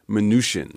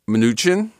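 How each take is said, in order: First: The middle consonant is a soft 'sh' sound. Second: The middle consonant is a hard 'ch' sound. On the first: The speaker calls it right. "the CH is soft as in champagne or charlatan" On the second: The speaker calls it wrong. "officially the pronunciation is not Mnuchin"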